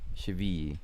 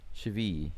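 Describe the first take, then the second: First: The double L is said as a Y sound. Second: The same.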